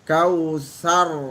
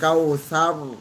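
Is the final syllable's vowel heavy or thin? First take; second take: thin; heavy. First: The final syllable has a thin, open a vowel. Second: The final syllable has a heavy, rounded o-like vowel. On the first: The speaker calls it right. "tetap buka sar" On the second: The speaker calls it wrong. "bukan kautsar"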